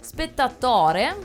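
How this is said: It is said with a marked, unusual cadence.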